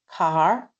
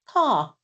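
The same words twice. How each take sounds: First: The final R sound is clearly pronounced. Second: The final R sound is dropped entirely. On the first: "I don't say car" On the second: "people in England often drop the R in the middle or the end"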